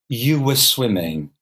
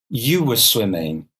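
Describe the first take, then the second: The two takes are said the same way.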